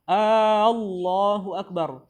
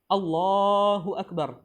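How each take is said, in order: First: The opening vowel is drawn out long. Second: The opening vowel is short. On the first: It becomes a question. The speaker calls it wrong. "hamzahnya kita panjangkan" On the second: It is a statement. The speaker calls it right. "ini artinya Allah Maha Besar"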